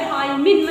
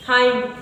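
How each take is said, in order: First: The word ends with an extra n syllable. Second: The word ends on an m sound. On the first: The speaker calls it wrong. "हाइमिन मत पढ़ लेना" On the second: The speaker calls it right. "हाई पढ़ोगे"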